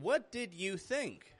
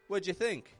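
First: Each word is said separately and fully. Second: 'What did' is blended into one short syllable. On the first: "instead of saying" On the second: "you could just say"

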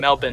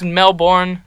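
First: It is said in the Australian way. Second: It is said in a non-Australian way. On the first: The speaker calls it right. "If you're Australian, you would pronounce it Melbourne" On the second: The speaker calls it wrong. "I thought it was Melbourne"

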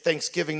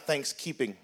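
First: The stress falls on the giving part. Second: The stress falls on the thanks part. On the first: Real thanks must be joined with giving. The speaker calls it right. "it isn't enough to be thankful. We also must be thanksgiving" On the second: Thanks alone is treated as enough. The speaker calls it wrong. "It seems too many people have got it backwards"

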